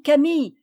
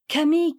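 First: Higher, louder second call; crying out. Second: Higher call to a friend. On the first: Madeleine calls Camille again, louder cry. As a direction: call her again, stronger. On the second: Madeleine calls Camille across the field, calling out. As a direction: call her over. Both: A narrator's reading. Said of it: "s'écria Madeleine".

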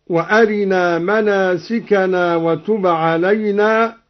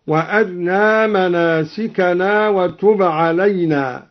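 First: Said in the usual way. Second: وأرنا with a snatched, very short vowel on a light ra, almost "wa-arna"; ikhtilas of the ra. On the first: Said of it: "باختلاس الراء". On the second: Shown as a demonstration. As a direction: clip the kasra of the ra in وأرنا, keeping the ra thin. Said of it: "باختلاس الراء ويتعين عليه ترقيقها".

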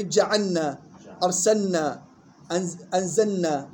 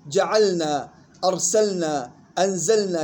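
First: جعلنا، أرسلنا، أنزلنا with l swallowed into "nn"; wrongly merged lam. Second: جعلنا، أرسلنا، أنزلنا with a distinct l before n; clear still lam. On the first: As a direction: misread جعلنا، أرسلنا، أنزلنا as "ja'anna, arsanna, anzanna". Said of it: "غلط". (جعلنا، أرسلنا، أنزلنا بإدغام اللام في النون خطأً) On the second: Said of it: "لام ساكنة مظهرة". (جعلنا، أرسلنا، أنزلنا بإظهار اللام الساكنة) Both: Shown as a demonstration.

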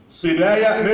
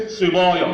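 First: صبايا with thin front "baya" after ص; light ب and ي. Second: Put-on صبايا with dark, backed "boya"; wrongly heavy ب. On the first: (صبايا بترقيق الباء والياء) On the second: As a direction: thicken ب and ي in صبايا. (صبايا بتفخيم الباء والياء خطأً) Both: Shown as a demonstration. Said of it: "ما تفخمش الباء والياء".

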